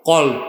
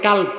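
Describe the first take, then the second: First: The word starts with a deep throaty q sound. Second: The word starts with a plain k sound. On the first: The word means heart. The speaker calls it right. "উচ্চারণ হবে কি? কল।" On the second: The word means dog. The speaker calls it wrong. "অনেকে ভুল উচ্চারণ করে কাল্ব। কাল্ব মানে কুত্তা"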